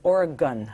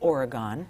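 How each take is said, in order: First: Some vowels in the word are reduced or dropped. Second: Every vowel in the word is fully pronounced. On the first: The speaker sounds like a local. The speaker calls it right. "it's Oregon" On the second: The speaker is an outsider to the place. The speaker calls it wrong. "I thought you have to pronounce all of the vowels"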